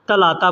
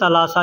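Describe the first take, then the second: First: The middle consonant is a t sound. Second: The middle consonant is an s sound. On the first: This is how people say it in everyday speech. "बोलने के लिए ... तलाता बोलते हैं" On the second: This follows how the word is written. "लिखने में तलासा लिखा जाता है"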